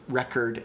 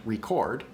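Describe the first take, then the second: First: "record" stressed at the start, with a reduced second vowel; stress on first syllable. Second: "record" stressed at the end, with a full O; stress on second syllable. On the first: Streamer repeating the example for viewers, "record" stressed on first syllable. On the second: Streamer repeating the example for viewers, "record" stressed on second syllable. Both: Shown as a demonstration. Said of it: "earlier I said record and record".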